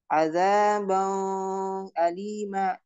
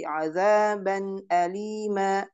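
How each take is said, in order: First: The n sound is nasalized and prolonged. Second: The n sound is pronounced clearly without nasalization. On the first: The speaker calls it wrong. "bukan dibaca" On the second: The speaker calls it right. "Jadi azaban alima"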